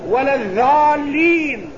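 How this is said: The letter is said as a light dh sound. The speaker calls it wrong. "العجم يقول"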